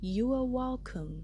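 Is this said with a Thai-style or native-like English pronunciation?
native-like. It is pronounced in a native-like English way. The speaker calls it right. "อย่าออกตามหนูเด้อมันคือ"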